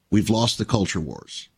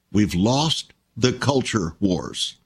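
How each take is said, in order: First: Said in the usual way. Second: Slow, weighty, stress on lost; slow emphatic repeat. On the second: Shown as a demonstration. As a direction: let each word land slowly, leaning on lost.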